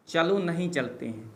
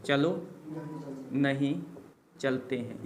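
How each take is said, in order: First: Said in the usual way. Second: चलो, pause, नहीं, pause, चलते हैं, each word set apart; word by word dictation. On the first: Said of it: "चलो / नहीं / चलते हैं repeated word by word". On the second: Shown as a demonstration. Teacher dictating चलो नहीं चलते हैं to students, each word set apart. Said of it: "same sentence said first in one breath".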